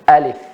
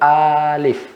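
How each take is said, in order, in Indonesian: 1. Vokalnya dibaca satu harakat. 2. Vokalnya dibaca dua harakat. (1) "Itu yang dibaca satu harakat" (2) "kalau jadi dua dia alif"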